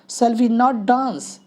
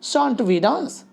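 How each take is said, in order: First: 'Not' is said as a separate full word. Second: 'Not' is contracted onto the verb as 'shan't'. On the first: "सेल और नॉट इधर है" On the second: "हम इसको बोल देते हैं शॉन्ट we dance"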